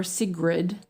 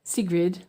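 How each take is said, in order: First: Sigrid said SIG-rid, short i vowel; name pronunciation. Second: Sigrid said SEE-grid, long ee vowel; name pronunciation. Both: Shown as a demonstration. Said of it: "is it Sigrid?".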